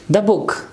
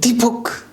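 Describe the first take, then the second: First: The word 'the' takes its reduced, weak form. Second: The word 'the' takes its full, stressed form. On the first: The noun is mentioned without special emphasis. "So normally we say the book" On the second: The noun is being emphasized. "with emphasis about the noun ... you use the strong form"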